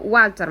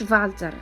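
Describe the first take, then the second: First: The name begins with a W sound. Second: The name begins with a V sound. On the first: The speaker calls it right. "se prononce aussi wa ... كنقولوا والتر" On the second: The speaker calls it wrong. "ما كنقولوش فالتر"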